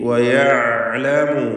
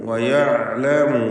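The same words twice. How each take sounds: Both takes have the same delivery.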